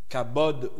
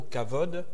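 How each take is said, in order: First: The middle consonant is a 'b' sound. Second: The middle consonant is a 'v' sound. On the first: "on peut le prononcer des deux façons" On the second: "on peut le prononcer des deux façons"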